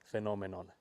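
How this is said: It is said with a half-Finnish accent.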